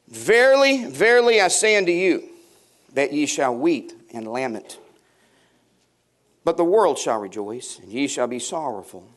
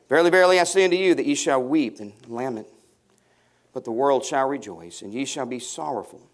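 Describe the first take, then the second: First: Solemn Bible reading; scripture reading. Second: Scripture reading. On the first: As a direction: declaim the verse like King James. Reads scripture aloud. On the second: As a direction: read the verse again, calmer. Rereads the verse. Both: Acted.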